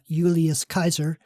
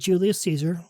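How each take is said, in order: First: Caesar begins with a hard K sound. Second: Caesar begins with a soft S sound. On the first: This is how the ancient Romans said the name. The speaker calls it right. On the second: This is the modern way of saying the name. The speaker calls it wrong.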